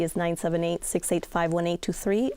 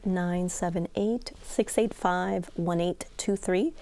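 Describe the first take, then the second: First: The number is said at normal speed. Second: The number is said slowly.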